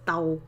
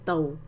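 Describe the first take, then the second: First: The vowel ends in a tense 'ow' sound. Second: The vowel ends in a softer 'oh' sound. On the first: This is the standard way it is written and said. "This tàu" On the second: This is the easier, informal way of saying it. "could sometimes be tàu"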